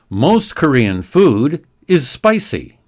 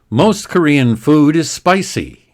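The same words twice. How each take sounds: First: The sentence is read at a slow pace. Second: The sentence is read at a quick pace. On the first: "the next sentence slowly" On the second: "More quickly now"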